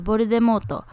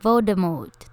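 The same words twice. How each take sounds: First: ボルデモート with English stress on MORT; English pronunciation. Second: ボルデモート in even katakana syllables; Japanese pronunciation. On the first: Host teaches girls the English name, American-style ボルデモート. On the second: Host shows the Japanese version, katakana ボルデモート. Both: Shown as a demonstration. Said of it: "こんないった感じで".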